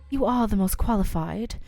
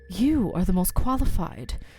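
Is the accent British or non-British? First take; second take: British; non-British. First: It is spoken in a British accent. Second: It is spoken without a British accent. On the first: The speaker calls it wrong. "why am I giving her a British accent now" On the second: The speaker calls it right. "she's the Ray voice"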